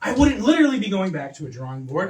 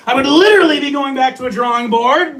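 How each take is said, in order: First: Said in the usual way. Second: "literally" punched louder and higher; stress on literally. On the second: Shown as a demonstration. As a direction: hit "literally" hard to prove the point. Positive case set against negative.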